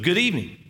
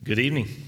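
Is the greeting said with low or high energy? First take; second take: high; low. First: The greeting is said loudly with lots of energy. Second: The greeting is said quietly with little energy. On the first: The speaker calls it right. "because I'm excited to see you" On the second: The speaker calls it wrong. "I was kind of weak"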